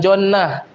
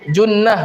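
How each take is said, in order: First: The first vowel is an open o sound. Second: The first vowel is a rounded u sound. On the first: The speaker calls it wrong. "bukan jonnah" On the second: The speaker calls it right. "Junnah bukan jonnah"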